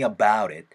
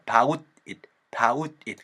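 First: The t is flapped and linked smoothly. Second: The t is a hard, separate stop sound. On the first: The speaker calls it right. "모음 사운드 사이에서 t 사운드를 굴려버리면" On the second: The speaker calls it wrong. "about it이라고 얘기하는 사람들도 있을 거예요. 근데 불편하지 않으세요?"

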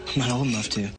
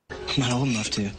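No difference in how they are said.

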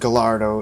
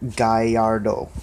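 First: The double L is said as an L sound. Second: The double L is said as a Y sound. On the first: The speaker calls it wrong. "it's not pronounced Gallardo" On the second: The speaker calls it right. "The two L's is pronounced as a Y"

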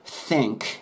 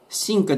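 First: The vowel is shifted toward an 'eh' sound. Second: The vowel is a clear, tense 'ee' sound. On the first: The speaker calls it right. "絵にずらすと綺麗です" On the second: The speaker calls it wrong. "シンクではなくて"

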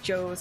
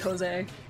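First: The name is said as one syllable rhyming with rose. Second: The name is said without rhyming with rose. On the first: The speaker calls it wrong. "like Rose with a J" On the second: The speaker calls it right. "this one's supposed to be Jose"

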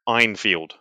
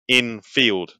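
First: The first vowel sounds like 'eye'. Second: The first vowel sounds like 'eh'. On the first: The speaker calls it wrong. "not Einfield" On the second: The speaker calls it right. "it is Enfield"

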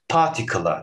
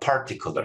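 First: The r sound is dropped. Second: The r sound is clearly pronounced. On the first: This is how a British speaker says it. "bir İngiliz particle gibi bir şey söylerken" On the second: This is how an American speaker says it. "particular şeklinde bir r sesiyle söylüyor"

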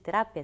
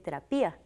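First: The ending 'pia' glides together as one syllable. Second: The ending 'pia' splits into two separate syllables. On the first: The speaker calls it wrong. "no existe diptongo, entonces no se dice terapia" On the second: The speaker calls it right. "se dice terapia"

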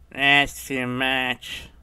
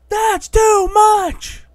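First: It is said flatly, without excitement. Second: It is said excitedly, with raised energy. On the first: The speaker calls it wrong. "Normally people go" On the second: The speaker calls it right. "when they should be yelling"

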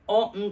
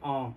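First: The word is said in its full, strong form. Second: The word is said in a weak, relaxed form. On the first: The speaker calls it wrong. "on じゃなくて" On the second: The speaker calls it right. "ちょっと力がこれは抜ける感じですね"

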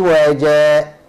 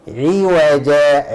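No difference in how they are said.

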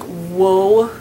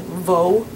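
First: The word begins with an English W sound. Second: The word begins with a V sound. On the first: The speaker calls it wrong. "that's not how you say it" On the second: The speaker calls it right. "You go vo"

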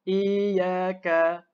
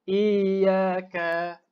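Both takes have the same delivery.

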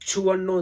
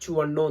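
First: The word is said with heavy stress. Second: The word is said plainly without extra stress. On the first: The speaker calls it wrong. "Stress ചെയ്ത് പറയേണ്ട" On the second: The speaker calls it right. "ചുവണ്ണോ എന്ന് പറയാൻ മതി"

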